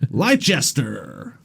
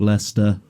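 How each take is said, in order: First: It is said the way Americans say it. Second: It is said the local British way. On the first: "or as a lot of Americans say" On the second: "a place called Leicester"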